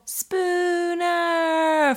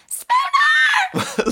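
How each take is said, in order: First: The name is long and drawn out. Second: The name is short and plain.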